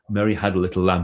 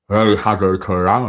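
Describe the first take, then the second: First: It is spoken plainly and clearly. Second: It is spoken with the mouth pulled sideways.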